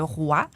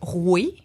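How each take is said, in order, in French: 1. La voyelle sonne comme 'wah'. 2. La voyelle sonne comme 'weh'. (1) "au lieu de roi" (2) "la langue de la royauté, c'était de dire roué"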